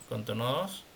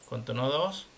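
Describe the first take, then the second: The two takes are said the same way.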